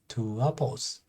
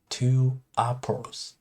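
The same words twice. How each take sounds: First: A W sound links the two words. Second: The two words are said without a W sound. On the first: The speaker calls it right. "add W" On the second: The speaker calls it wrong.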